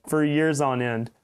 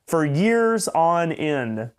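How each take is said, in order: First: Said in the usual way. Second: "for years on end" stretched out very slowly; slow, heavy emphasis; drawn-out emphasis. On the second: Real, not acted.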